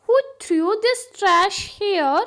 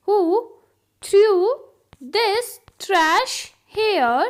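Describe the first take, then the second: First: Said in the usual way. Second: Loud, separated words with long pauses; word-by-word dictation. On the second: Shown as a demonstration. Teacher repeats the trash question for learners, word by word. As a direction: stop after nearly every word.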